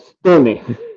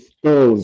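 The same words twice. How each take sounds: First: The name is said with a Finnish pronunciation. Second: The name is said with an English pronunciation. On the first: "it's it's uh, Stone. Finnish" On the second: "you maybe pronounce it stone"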